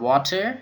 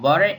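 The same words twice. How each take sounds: First: It is said in a British accent. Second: It is said in an American accent. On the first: "British English យើងអានថា" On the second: "American English យើងអាន"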